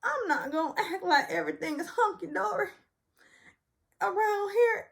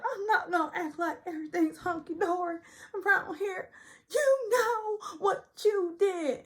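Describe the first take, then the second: First: High, indignant imitation; high mock-indignant Sutton. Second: High, teary, slowed wail; high weepy imitation, slowing at the end; mock crying Sutton. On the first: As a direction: declare it high and offended. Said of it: "So Sutton says". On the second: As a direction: drag it out through mock sobs. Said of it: "she's like".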